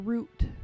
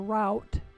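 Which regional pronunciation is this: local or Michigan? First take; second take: local; Michigan. First: It is said the local way. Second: It is said the Michigan way. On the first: "here it's called a route" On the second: "in Michigan is called a route"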